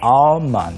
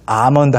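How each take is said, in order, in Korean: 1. 가벼운 L 소리와 함께 발음됩니다. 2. L 소리 없이 발음됩니다. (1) "L 발음이 있습니다" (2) "영어로는 아몬드 하시면 안 되고요"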